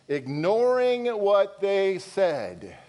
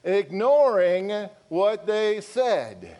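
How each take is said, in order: First: "Ignoring what they said" drawn out slowly, word by word; slow emphatic reading. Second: "Ignoring what they said" repeated slowly and louder, "said" pressed; slow, louder emphasis. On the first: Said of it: "Come on now". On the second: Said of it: "nobody's getting really excited". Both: Shown as a demonstration.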